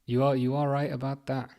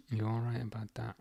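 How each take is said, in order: First: Said in the usual way. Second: Much softer, half to himself; muttered echo of his own words, under the breath; hushed aside. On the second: Real, not acted. Streamer agreeing with chat, repeating it quietly under his breath.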